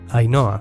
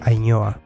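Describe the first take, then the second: First: The n is a plain n sound. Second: The n is a palatal ny sound. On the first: The speaker calls it right. "A menos que haya una H después" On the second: The speaker calls it wrong. "nunca va a ser"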